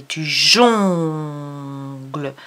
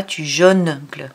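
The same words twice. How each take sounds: First: "jongles" very slow with a nasal "on", no N; right nasal, slowly. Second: "jongles" with an open "o" and an N sounded, "jo-ngles"; wrong reading. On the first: Teacher to child, saying "jongles" correctly and very slowly. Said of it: "mais tu jongles". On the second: Teacher to child, showing the wrong "jongles". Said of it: "On dit pas tu jongles". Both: Shown as a demonstration.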